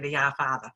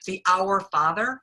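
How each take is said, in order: First: It is said in a Boston accent. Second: It is said in a standard accent. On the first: "I know I have a Boston accent" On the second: "is that how you say it?"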